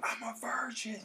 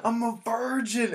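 First: High, hushed imitation of a yell; held-back mock yell. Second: High, loud, drawn-out mock scream; imitated scream. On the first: Retelling a friend's yelling, held-back strained mock yell. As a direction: yell it under the breath, pitched way up. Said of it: "he was just yelling". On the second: Naked friend screaming at a pool party, loud mock scream. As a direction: belt it out slowly like a proud announcement. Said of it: "he was just screaming".

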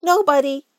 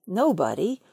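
First: High, loud little Rabbit voice; a higher, louder Rabbit pretending nobody's home; Rabbit's voice. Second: Said in the usual way. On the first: Rabbit calls from inside his hole, high and loud.

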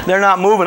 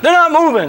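First: Said in the usual way. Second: "They're not moving" cried high and loud; loud exasperated "They're not moving". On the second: Real, not acted. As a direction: hit "not moving" with disbelief. Friends won't budge.

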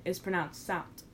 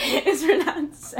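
First: Said in the usual way. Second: "scent" said slowly and loudly, laughing; emphatic correction. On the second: Real, not acted. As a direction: lean on "scent" as the fix. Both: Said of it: "I mean, scent".

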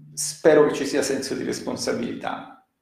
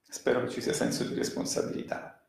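First: Said in the usual way. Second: Whispered repeat. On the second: Real, not acted. Commentator repeating his hope about responsibility to the audience, in a quick whisper. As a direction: whisper the line again, quicker, as a private aside.

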